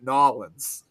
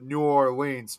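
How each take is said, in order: First: The name is squeezed into fewer syllables. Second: The name is said with all its syllables. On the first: The speaker calls it right. "now I'm trying to get used to calling it Nolans" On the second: The speaker calls it wrong. "I'm ashamed to admit I always used I- we always called it New Orleans"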